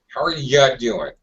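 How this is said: The word 'you' is reduced and unstressed. "Notice how underpronounced you is"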